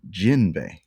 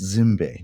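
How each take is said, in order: First: The name starts with a J sound. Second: The name starts with a Z sound.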